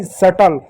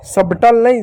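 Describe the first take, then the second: First: सटल said lower as "suttle", b silent. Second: सबटल with the b sounded, "sub-tul"; wrong way with b. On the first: Teacher giving children the correct reading, silent b. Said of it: "तो होगा सटल". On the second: Teacher showing children the wrong reading, b sounded. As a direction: say सबटल pronouncing the b. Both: Shown as a demonstration.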